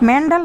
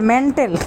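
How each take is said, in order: First: The middle consonant is a 'd' sound. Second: The middle consonant is a 't' sound. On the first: The speaker calls it wrong. "মেন্ডাল না" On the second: The speaker calls it right. "শুদ্ধ উচ্চারণ হয়েছে মেন্টেল"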